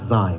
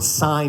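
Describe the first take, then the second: First: The word starts with a z sound. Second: The word starts with an s sound. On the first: The speaker calls it wrong. "not Zine" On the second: The speaker calls it right. "So sign"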